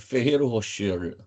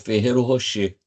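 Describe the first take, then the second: First: The final R of Rocher is pronounced. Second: The final R of Rocher is silent. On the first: The speaker calls it wrong. "a locução estava saindo assim" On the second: The speaker calls it right. "tirei o R e botei um acento circunflexo no E"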